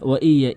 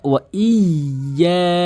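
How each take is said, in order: First: The 'y' sound is short and single. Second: The 'y' sound is held and doubled. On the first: The speaker calls it wrong. "তাসদিদের উচ্চারণটি বাদ দিয়ে ফেলে" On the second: The speaker calls it right. "তাসদিদের উচ্চারণ অবশ্যই করবেন"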